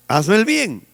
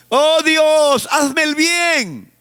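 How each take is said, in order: First: Said in the usual way. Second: High, slow, pitiful whine; mock pleading, stretched out slowly; whiny beggar prayer. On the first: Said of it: "¿Qué cosa?". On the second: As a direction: beg God like a helpless victim.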